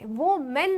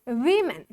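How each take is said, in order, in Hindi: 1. पहला अक्षर 'woe' जैसा सुनाई देता है। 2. पहला अक्षर 'wi' जैसा सुनाई देता है। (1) "वो मेन नहीं पढ़ते" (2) "इसको क्या पढ़ते हैं बाबू, वीमेन"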